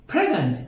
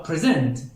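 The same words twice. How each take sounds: First: پرزنت as the noun, PRE-zent; stress on first syllable. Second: پرزنت as the verb, pre-ZENT; stress on second syllable. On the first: Teacher contrasts noun and verb, پرزنت stressed up front. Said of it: "این کلمه اسم هست یا فعل". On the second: Teacher contrasts verb with noun, پرزنت stressed at the end. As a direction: hit the last syllable of پرزنت. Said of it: "استرسی که روی این کلمات". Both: Shown as a demonstration.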